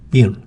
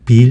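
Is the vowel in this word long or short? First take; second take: short; long. First: The vowel is clipped short. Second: The vowel is drawn out long. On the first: The speaker calls it right. "원래 영어 발음은 짧습니다" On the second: The speaker calls it wrong. "빌 이렇게 소리를 길게 내잖아요"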